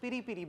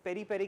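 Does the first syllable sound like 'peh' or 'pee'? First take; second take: pee; peh. First: The first vowel sounds like 'ee' in 'peep'. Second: The first vowel sounds like 'e' in 'pet'. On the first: "वहाँ पर पिरी पिरी बोला जाता है इसको" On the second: "पेरी पेरी की जगह"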